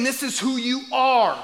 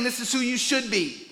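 First: "are" held firm and falling at the end; stress on ARE. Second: Said in the usual way. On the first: Retold or imitated. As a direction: land hard on "are". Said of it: "He's saying". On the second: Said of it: "Notice Jesus isn't saying".

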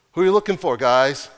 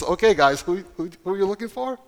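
First: Voiced call. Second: Amused repeat. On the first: Acted Jesus calling to soldiers. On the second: Acted. Jesus asking again, amused.

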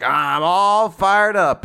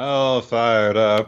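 First: Slow, drawn-out hammed battle cry, higher and louder; playful anime fired-up line; mock fired-up. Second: Slow, drawn-out mock hero voice; teasing echo of the battle cry; echoed fired-up. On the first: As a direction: stretch each word like an anime hero powering up. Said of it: "Verica's like". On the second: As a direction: savour the catchphrase as you repeat it. Co-host echoes the quote.

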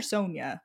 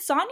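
First: Sonia with a long "oh", SOHN-ya; Sonia, first vowel as in "so"; other Sonia reading. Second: Sonia with an open "ah", SAHN-ya; Sonia, first vowel as in "father"; one of two Sonia readings. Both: Shown as a demonstration. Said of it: "is it Sonia or Sonia?".

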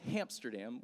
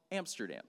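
First: "Hamsterdam" with an H added at the front; "Hamsterdam", opening on a clear H sound; misheard name. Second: Said in the usual way. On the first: Retold or imitated. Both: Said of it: "I thought he said Hamsterdam".

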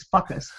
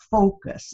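First: "focus" turned into "fuck us"; mispronounced "focus". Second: Said in the usual way. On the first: Retold or imitated. Quoting father's slip, "focus" said as "fuck us". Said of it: "It was fuck us". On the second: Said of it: "he could just never focus".

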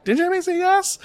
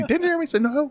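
First: Put-on very high, tiny toddler squeak; little girl voice. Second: Son's voice. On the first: Father replaying his daughter's reply to her brother. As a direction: shoot the pitch way up like a small girl. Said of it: "three-year-old little girl voice". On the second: Retold or imitated. Re-enacting son's line.

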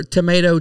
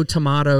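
First: "Tomato" with a long AY in the middle; American tomato. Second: "tomato" with an open AH in the middle; British-style tomato. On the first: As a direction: say "Tomato" as tuh-MAY-toh. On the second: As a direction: say "tomato" as tuh-MAH-toh. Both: Shown as a demonstration. Tomato, tomahto saying contrasts vowels.

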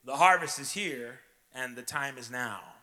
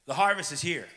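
First: "harvest" and "now" hit loud and falling; louder restated line with added "time is now"; building proclamation. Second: "harvest" punched loud and falling; loud declaration. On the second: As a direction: proclaim "harvest" with full force. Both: Shown as a demonstration. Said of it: "Let me say it this way".

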